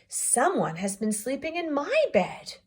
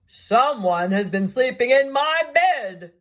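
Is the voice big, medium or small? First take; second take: medium; big. First: It is said in a middle-sized voice. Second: It is said in a great big voice.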